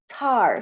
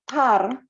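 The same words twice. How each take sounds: First: The t has a puff of air. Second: The t has no puff of air. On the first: The speaker calls it right. "there will be some sort of uh, air coming out in the pronunciation" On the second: The speaker calls it wrong. "it's not tar"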